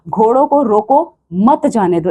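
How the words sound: There is a pause after 'roko'.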